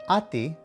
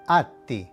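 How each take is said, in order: First: The middle consonant is short and quick. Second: The middle consonant is drawn out long. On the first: The speaker calls it wrong. "would not be pronounced ati" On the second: The speaker calls it right. "you have to draw the sound out a little bit"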